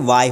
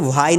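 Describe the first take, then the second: First: The word begins with no h sound. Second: The word begins with an audible h sound. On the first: The speaker calls it right. "ये वाई होता है, तो एच को sound नहीं करना" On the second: The speaker calls it wrong. "ये वाई नहीं होता"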